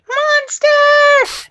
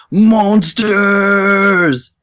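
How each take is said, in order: First: Put-on high, loud childish scream; screaming kid. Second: Pig man shout. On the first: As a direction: shriek it like a panicked kid. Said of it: "the kid screamed". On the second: Retold or imitated. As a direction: bellow like a big brute. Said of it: "the pig goes".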